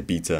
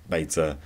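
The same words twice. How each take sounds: First: "beta" said BEE-tuh; "beta" with first syllable as "bee"; personal pronunciation. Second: "beta" said BAY-tuh; "beta" with first syllable as "bay"; alternative pronunciation. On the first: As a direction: give "beta" an ee vowel, like "Peter". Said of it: "I personally say beta". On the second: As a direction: give "beta" an ay vowel, like "later". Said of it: "however you pronounce". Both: Shown as a demonstration.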